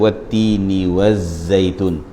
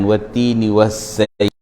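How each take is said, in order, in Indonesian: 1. Bunyi z bersuara, tanpa udara yang keluar. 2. Bunyi z berdesah, dengan udara yang keluar. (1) "tak ada angin" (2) "Jangan ... Itu dah ada angin tu"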